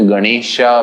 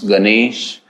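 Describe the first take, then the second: First: The word ends with an added a vowel. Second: The word ends on the consonant sh.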